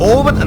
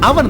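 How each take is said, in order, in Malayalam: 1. ഈ വാക്ക് 'o' സ്വരത്തിലാണ് തുടങ്ങുന്നത്. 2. ഈ വാക്ക് 'a' സ്വരത്തിലാണ് തുടങ്ങുന്നത്. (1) "ഓവൻ എന്നല്ല" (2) "അവൻ അവൻ എന്നാ പറയണം"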